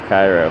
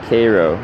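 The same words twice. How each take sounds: First: It is said the usual, widespread way. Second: It is said the local Southern Illinois way. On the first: "instead of Cairo" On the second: "Southern Illinois say Cairo"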